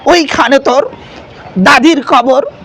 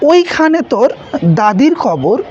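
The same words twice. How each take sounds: First: It is declaimed like a political rally speech. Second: It is recited in a plain, ordinary way. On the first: "একটু রাজনীতির সাথে সম্পৃক্ত" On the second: "স্বাভাবিকভাবে কবর কবিতা আবৃত্তি করছিল"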